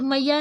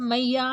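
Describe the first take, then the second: First: Said in the usual way. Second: मैया with the final आ held long and slow; drawn-out vowel. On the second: Shown as a demonstration. Teacher shows students मैया with a long drawn vowel. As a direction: stretch मैया like a devotional chant. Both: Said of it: "काफ़ी लंबा खींच रहा है".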